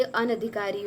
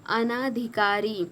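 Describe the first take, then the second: First: अनधिकारी with a short "na"; corrected short vowel. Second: अनाधिकारी slow, with a long "naa"; wrong long vowel. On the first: (अनधिकारी में "न" छोटा बोलें) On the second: (अनाधिकारी में "ना" खींचकर बोलें) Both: Shown as a demonstration. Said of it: "तो ये अनधिकारी होगा".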